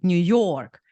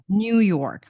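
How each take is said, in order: First: The stress is on the second syllable. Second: The stress is on the first syllable. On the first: "people from Eastern Eu- Europe say New York" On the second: "In English, it's like New York on the first syllable"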